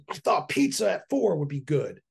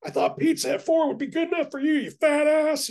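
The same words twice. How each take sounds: First: Mild imitation of the wife snapping; a hint of an irritated wife; lightly mocked curt reply; retold snap. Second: High, squeaky, louder mock wife voice; high mocking impression of the wife's snap. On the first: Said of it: "snapped at me". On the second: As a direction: exaggerate her snapping into a shrill cartoon. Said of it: "you were like".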